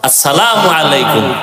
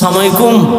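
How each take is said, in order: First: The greeting is said in full, every syllable clear. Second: The greeting is clipped, with sounds run together. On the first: It is a proper, respectful greeting. The speaker calls it right. "সুন্দর করে সালাম দিছে" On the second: It wishes harm on the person greeted. The speaker calls it wrong. "আমগো মুসলমান দিল নষ্ট, এরা সালাম দেয় সালামালাইকুম"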